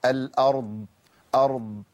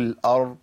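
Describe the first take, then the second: First: "الأرض" with a heavy R and a sustained, audible ض; exaggerated Dad. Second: "الأرض" stopped on the R, the ض unheard; missing Dad. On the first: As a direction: let the sound run on in the ض of "أرض". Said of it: "بحاول أبالغ في صوت الضاد". ("الأرض" بمبالغة في صوت الضاد) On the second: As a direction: imitate the error: lose the last sound of "الأرض". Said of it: "مفيش ضاد بتطلع خالص". ("الأرض" من غير صوت الضاد) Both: Shown as a demonstration.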